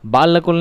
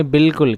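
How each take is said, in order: First: "बालकुल" as baa-la-kul, higher, with long aa; raised baa-la-kul as the example to avoid in "बालकुल"; wrong reading. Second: "बिल्कुल" as bil-kul, short first vowel; firm bil-kul for "बिल्कुल"; correct silent-alif reading. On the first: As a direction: say "बालकुल" wrongly with the alif sounded. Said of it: "बालकुल नहीं पढ़ेंगे". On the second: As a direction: say "बिल्कुल" with no aa after the b. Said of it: "इसको पढ़ेंगे बिल्कुल". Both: Shown as a demonstration.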